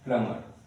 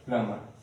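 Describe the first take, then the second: The two takes are said the same way.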